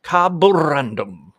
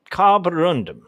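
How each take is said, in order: First: Carborundum said slowly with a rolled R. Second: Said in the usual way. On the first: Shown as a demonstration. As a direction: roll the R in Carborundum, drawn out. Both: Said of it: "I wanna roll the R on that".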